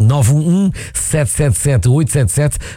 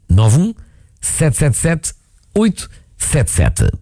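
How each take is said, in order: First: The number is said at normal speed. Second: The number is said slowly.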